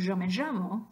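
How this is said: It is said in an Argentinian accent. "an Argentinian saying"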